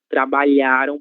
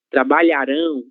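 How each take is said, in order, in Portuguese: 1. A tônica está na sílaba lha. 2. A tônica está na última sílaba, rão. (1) "sílaba tônica lhá" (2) "sílaba tônica rão"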